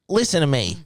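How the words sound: It is said at a very high pitch.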